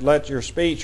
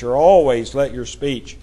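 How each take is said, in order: First: Said in the usual way. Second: "always" pressed firmly as the correction; stress on always. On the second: Shown as a demonstration. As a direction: correct yourself, leaning on "always".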